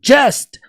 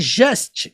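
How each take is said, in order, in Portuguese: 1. O J começa com um som forte 'dj'. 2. O J começa com um som suave 'zh'. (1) "para você pronunciar com força" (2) "a pronúncia não é just"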